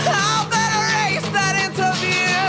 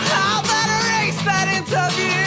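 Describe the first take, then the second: Both takes have the same delivery.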